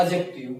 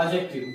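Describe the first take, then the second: First: एडजेक्टिव said softly with the d dropped; एडजेक्टिव without d, low and soft; silent d pronunciation. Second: एडजेक्टिव said low, d dropped; एडजेक्टिव with silent d, said low; silent d pronunciation. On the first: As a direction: answer with एडजेक्टिव as ajective. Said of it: "क्या होगा?". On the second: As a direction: model एडजेक्टिव as ajective, no d. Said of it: "तो डी silent हो जाएगा". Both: Shown as a demonstration.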